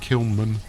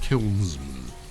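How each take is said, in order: First: The word has no s sound after kiln. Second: The word has an s sound after kiln. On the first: The speaker calls it wrong. "I can't get my head around saying kilnman. It doesn't sound right" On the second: The speaker calls it right. "It's kilnsman"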